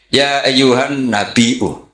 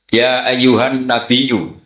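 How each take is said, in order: First: The word ends with a glottal stop before the vowel. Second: The word ends with a y-sound, no glottal stop. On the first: "Imam Nafek nggak mau, ini mahmusullam" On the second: "mengkufif hamzah menjadi ya"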